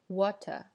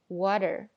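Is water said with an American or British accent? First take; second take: British; American. First: British accent, the t not a d-like tap. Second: American accent, the t a quick d-like tap. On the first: "英式英语会说water" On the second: "美音呢会说water，后面是一个非常短的d 的这样的一个声音"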